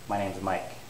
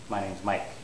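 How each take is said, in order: No difference in how they are said.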